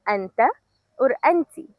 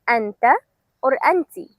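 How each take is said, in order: Both takes have the same delivery.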